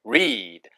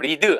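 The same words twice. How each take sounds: First: The vowel is drawn out long. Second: The vowel is short and clipped. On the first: The speaker calls it right. "re 하고 길게 read" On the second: The speaker calls it wrong. "이것도 read 하지 마시고"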